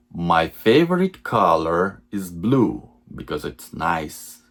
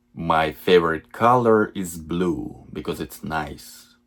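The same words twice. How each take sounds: The two takes are said the same way.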